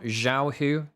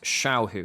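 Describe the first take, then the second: First: The name starts with a Z sound. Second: The name starts with an SH sound. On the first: The speaker calls it wrong. "spoken with like a Z" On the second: The speaker calls it right. "as though it's an S H in English"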